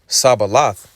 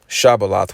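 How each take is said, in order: First: The word begins with an s sound. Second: The word begins with a sh sound. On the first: "in the dialect of the Ephraimites" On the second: "That's the correct way to say it"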